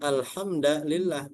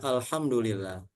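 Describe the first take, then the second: First: The vowel after 'alhamd' is a. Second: The vowel after 'alhamd' is u. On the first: "dibaca dengan alhamdulillah bin nasbi" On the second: "jumhur ulama membacanya alhamdulillah dengan dhamma"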